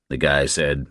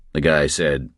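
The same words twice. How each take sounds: The two takes are said the same way.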